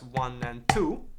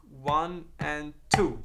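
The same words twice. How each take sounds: First: Slowed count of the pattern. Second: Drawn-out count, spaced beat by beat; very slow count. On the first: Teacher shows where the accent starts, counting slowly. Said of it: "That first note I play". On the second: Teacher demonstrates the upstroke, counting very slowly. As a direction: stretch each count apart. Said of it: "That first note I play with the right hand is gonna be an upstroke". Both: Shown as a demonstration.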